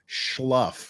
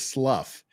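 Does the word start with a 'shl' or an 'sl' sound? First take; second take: shl; sl. First: The word starts with a 'shl' sound. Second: The word starts with a plain 'sl' sound. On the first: The speaker calls it wrong. "He said it's schluff, like S C H" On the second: The speaker calls it right. "I'm saying the word is slough"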